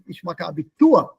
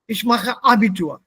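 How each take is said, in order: First: The stress falls on the last part of Abitur. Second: The stress falls early in Abitur. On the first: The speaker calls it right. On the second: The speaker calls it wrong.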